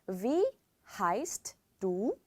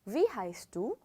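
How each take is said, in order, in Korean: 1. 이 단어들은 천천히, 하나씩 떼어서 발음해요. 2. 이 단어들은 빠르게, 이어서 붙여서 발음해요.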